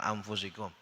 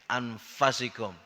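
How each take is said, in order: First: The vowel after the f sounds like u. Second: The vowel after the f sounds like a. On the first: This is the usual accepted reading. The speaker calls it right. "kita kan anfusikum" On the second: This is a weak variant reading. The speaker calls it wrong. "Ini qiraat dhaif"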